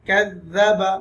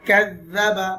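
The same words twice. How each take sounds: The two takes are said the same way.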